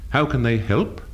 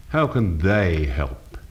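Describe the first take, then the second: First: Said in the usual way. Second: Slow, lower sneer leaning on "they". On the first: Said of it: "Inflection is an effective way of changing the meaning". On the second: Shown as a demonstration. Teacher showing changed mood, sneering emphasis on "they". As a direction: sneer it, drawing out "they" with a downward turn. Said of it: "becomes a sneer with inflective emphasis on the word they".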